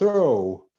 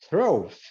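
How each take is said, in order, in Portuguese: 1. O gh final fica mudo. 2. O gh final é pronunciado. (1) "o G H não é pronunciado" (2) "se fosse levar pela regra, ele seria pronunciado"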